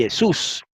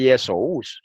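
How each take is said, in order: First: "Jesús" as ye-SUS, y onset and single u; correct Greek reading. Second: "Yesous" stretched as ye-so-US; wrong split diphthong. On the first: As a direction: say "Jesús" slowly with ou as one u. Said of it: "se lee Jesús". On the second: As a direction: keep o and u apart in "Yesous". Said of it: "en griego no se lee Yesous". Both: Shown as a demonstration.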